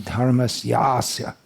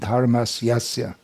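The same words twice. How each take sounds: First: The vowel before the final syllable is long. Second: The vowel before the final syllable is short. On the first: The speaker calls it right. "There should be" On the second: The speaker calls it wrong. "So everyone's pronouncing"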